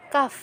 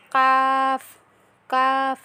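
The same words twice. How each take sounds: First: Said in the usual way. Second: Light কাফ from further forward, drawn out slowly; crisp কাফ, tongue set further forward than কপ; Arabic letter demo. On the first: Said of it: "এটা হচ্ছে স্বাভাবিকভাবে". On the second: Shown as a demonstration. Teacher contrasting a light কাফ with the heavy কপ. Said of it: "তার থেকে একটু এগিয়ে আসতে হবে".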